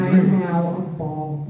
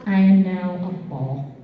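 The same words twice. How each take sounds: First: Very slow solemn restatement; even slower, deliberate. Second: Spoken slowly, each word weighed; solemn slow declaration; slow and deliberate. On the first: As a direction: drag out each word calmly. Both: Retold or imitated.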